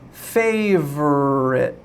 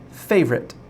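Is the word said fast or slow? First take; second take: slow; fast. First: The word is said slowly. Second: The word is said quickly. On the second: "then fast"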